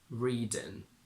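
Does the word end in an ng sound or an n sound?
n. The word ends with a plain n sound.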